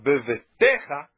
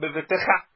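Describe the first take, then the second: First: The stress is on the next-to-last syllable. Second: The stress is on the final syllable. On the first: The speaker calls it right. "bevetecha é uma sílaba tônica antes da final" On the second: The speaker calls it wrong. "e não bevetecha"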